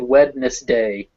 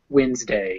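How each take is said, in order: First: The middle d is sounded. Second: The middle d is silent. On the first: "it's spelled Wednesday" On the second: "it's pronounced Wednesday"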